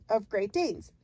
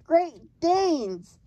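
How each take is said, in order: First: Said in the usual way. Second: Loud, high, triumphant giant; storybook cry of victory. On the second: A narrator's reading. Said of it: "the giant cried triumphantly".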